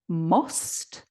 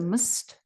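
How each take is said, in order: First: The vowel is full and clearly pronounced. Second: The vowel is reduced and the word is weak. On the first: "You would expect must" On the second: "which is weakened to must"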